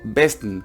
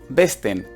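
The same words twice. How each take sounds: First: The vowel in the last syllable is dropped. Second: The vowel in the last syllable is clearly pronounced. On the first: The speaker calls it right. "digo besten" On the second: The speaker calls it wrong. "No digo besten"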